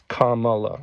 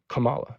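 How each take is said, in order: First: The first syllable sounds like comma. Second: The first syllable does not sound like comma. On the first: It is the proper pronunciation of the name. The speaker calls it right. "It's Kamala" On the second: It is the mispronunciation some opponents use. The speaker calls it wrong. "Trump supporters call her Kamala"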